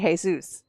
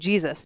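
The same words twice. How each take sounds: First: The name has a Spanish pronunciation. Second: The name has an English pronunciation. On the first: "a Spanish person would say Jesus" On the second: "I'm saying Jesus because I'm reading it"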